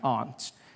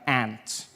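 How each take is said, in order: First: The word does not sound like 'ant'. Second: The word sounds like 'ant'. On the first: It names a parent's sister. "I say my aunt" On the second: To the speaker it names an insect. "Out here, you say my aunt, which to me is an insect"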